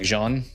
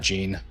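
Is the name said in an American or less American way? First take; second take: less American; American. First: The name is said with a less American pronunciation. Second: The name is said with an American pronunciation. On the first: The speaker calls it right. "less American. Like Jean" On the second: The speaker calls it wrong. "Maybe it's not Jean"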